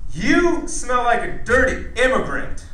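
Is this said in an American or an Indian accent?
American. It is said in a plain American accent. It comes across as offensive.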